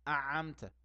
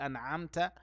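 First: The n sound merges into the next consonant. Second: The n sound is clearly pronounced. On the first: The speaker calls it wrong. "يدغم في غير محل الإدغام" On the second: The speaker calls it right. "يجي ينطق أنعمت"

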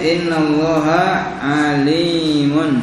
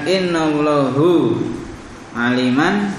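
First: Allah ends in a, alim ends in un. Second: Allah ends in u, alim ends in an. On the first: The speaker calls it right. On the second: The speaker calls it wrong.

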